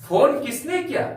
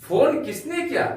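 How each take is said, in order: Both takes have the same delivery.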